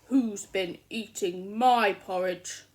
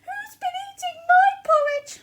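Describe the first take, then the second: First: The voice is loud, low and growly. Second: The voice is small, high and squeaky. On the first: "in a loud growly voice" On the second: "in his little squeaky voice"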